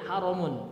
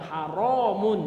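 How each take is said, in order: First: The vowel after the r is kept short. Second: The vowel after the r is held long. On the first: It means sacred or honored. "dia pendek" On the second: It means forbidden. "yang haram itu yang rohnya panjang"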